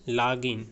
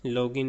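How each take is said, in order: First: लॉगिन with an open a, like "laa-gin"; teacher giving the right लॉगिन with an aa sound; correct pronunciation. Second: लॉगिन with a rounded o, like "lo-gin"; the mistaken लॉगिन, o as in "go"; teacher showing the wrong लॉगिन with an o sound; wrong pronunciation. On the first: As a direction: say लॉगिन with a broad a vowel. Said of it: "इसको आप लॉगिन करें". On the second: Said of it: "लॉगिन नहीं". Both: Shown as a demonstration.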